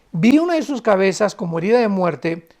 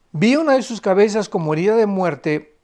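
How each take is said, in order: No difference in how they are said.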